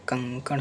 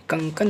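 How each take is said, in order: First: कंकण with a retroflex ण, softly whispered; correct form कंकण. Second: कंकन said with a plain dental n at the end; wrong form kंकन. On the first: Teacher softly giving students the right form कंकण with a retroflex ण. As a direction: whisper कंकण, curling the tongue back for the final ण. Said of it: "आपका कंकण होता है". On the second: Teacher showing students the wrong form कंकन with a dental n. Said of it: "कंकन नहीं होता है". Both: Shown as a demonstration.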